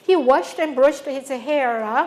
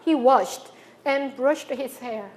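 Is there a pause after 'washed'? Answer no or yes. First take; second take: no; yes. First: It is said as one unbroken phrase. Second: There is a break right after washed.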